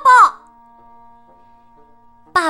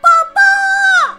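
First: It is said loudly. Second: It is shouted at full voice.

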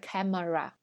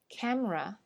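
First: The middle syllable is fully pronounced. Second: The middle syllable is dropped. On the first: The speaker calls it wrong. "而不是camera" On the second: The speaker calls it right. "我们常说这个相机camera"

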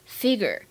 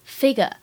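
First: It is said in an American accent. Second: It is said in a British accent. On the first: "这是美式的读法" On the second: "这是英式的读音"

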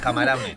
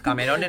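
First: The second vowel is an 'a' sound. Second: The second vowel is an 'e' sound. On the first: The speaker calls it right. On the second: The speaker calls it wrong. "Camerones no"

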